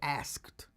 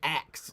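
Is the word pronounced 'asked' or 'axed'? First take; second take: asked; axed. First: The word sounds like 'asked', with s before k. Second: The word sounds like 'axed', with k before s. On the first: It means posing a question. The speaker calls it right. "I wanted to say asked. So I wanted to make sure I said it right" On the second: It sounds like chopping something with an axe. The speaker calls it wrong. "I didn't want to say asked, like, you know, I'm hacking a tree"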